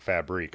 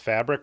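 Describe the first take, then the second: First: It is said with a European-style pronunciation. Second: It is said the plain English way. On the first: "like a European pronunciation" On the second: "just pronounced fabric"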